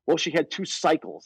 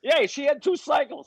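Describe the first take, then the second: First: Said in the usual way. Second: High, slow mock aunt voice; hammed-up aunt, high and slow; aunt's excuse. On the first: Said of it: "she used to always try to say". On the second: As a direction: pitch it way up and drag it out. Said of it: "it's like at twelve".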